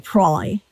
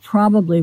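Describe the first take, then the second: First: The word is shortened to two syllables. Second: The word is said in full, three syllables.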